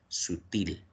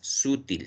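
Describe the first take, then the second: First: The stress is on the last syllable. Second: The stress is on the first syllable. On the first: The speaker calls it right. "sino sutil. ... Es aguda" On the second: The speaker calls it wrong. "la pronunciación correcta no es sutil"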